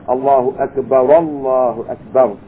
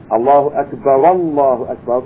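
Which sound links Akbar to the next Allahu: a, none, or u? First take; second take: a; a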